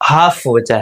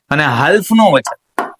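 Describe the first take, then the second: First: Said in the usual way. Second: હાલ્ફ with the l sounded, marked wrong; wrong reading. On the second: Shown as a demonstration. Teacher shows pupils the wrong reading.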